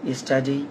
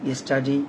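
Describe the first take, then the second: Both takes have the same delivery.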